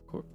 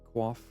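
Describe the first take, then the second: First: The word is said as 'koyf'. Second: The word is said as 'kwaff'. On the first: "I've always heard coif"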